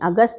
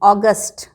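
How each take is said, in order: First: It begins with a short 'uh' vowel. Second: It begins with a rounded 'aw' vowel. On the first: The speaker calls it wrong. "अगस्त नहीं" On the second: The speaker calls it right. "औ भी शुरू में बदलना है"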